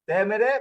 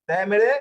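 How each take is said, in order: Both takes have the same delivery.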